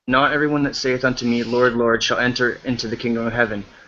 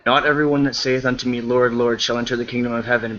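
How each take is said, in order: First: It is read more slowly. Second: It is read very fast.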